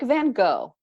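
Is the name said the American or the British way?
American. The name is said the American way.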